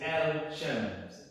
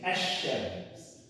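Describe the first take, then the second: First: The L is pronounced before the sh sound. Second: The L is absorbed into a doubled sh sound. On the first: The speaker calls it wrong. "you can't say Al Shams" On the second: The speaker calls it right. "You say Ash Shams"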